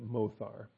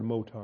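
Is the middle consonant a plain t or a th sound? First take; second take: th sound; plain t. First: The middle consonant is a th sound. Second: The middle consonant is a plain t. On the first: The speaker calls it right. "I'm going to pronounce it mothar" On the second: The speaker calls it wrong. "I'm not going to pronounce this word motar"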